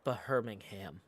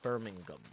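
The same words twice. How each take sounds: First: The middle h sound is pronounced. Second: The middle h sound is left out. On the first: The speaker calls it wrong. "it's not Birmingham" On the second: The speaker calls it right. "you don't pronounce the H in Birmingham"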